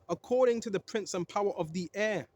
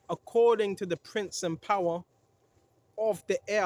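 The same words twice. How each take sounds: First: It is read at a quicker pace. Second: It is read at a slower pace.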